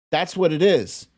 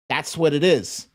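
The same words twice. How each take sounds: The two takes are said the same way.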